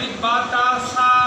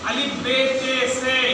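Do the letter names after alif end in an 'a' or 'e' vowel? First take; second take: a vowel; e vowel. First: The letter names end in an 'a' vowel. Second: The letter names end in an 'e' vowel. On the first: The speaker calls it right. "इस तरह से सबक को पढ़ेंगे" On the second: The speaker calls it wrong. "इस तरह से नहीं पढ़ेंगे"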